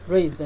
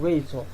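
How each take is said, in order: First: The unstressed vowel is a weak schwa. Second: The unstressed vowel is a full vowel. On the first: The speaker calls it right. "this is pronounced razor" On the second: The speaker calls it wrong. "instead of razor"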